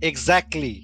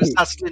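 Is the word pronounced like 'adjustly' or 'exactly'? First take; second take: exactly; adjustly. First: The word starts with an 'egz' sound. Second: The word starts with an 'adj' sound. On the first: The speaker calls it right. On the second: The speaker calls it wrong.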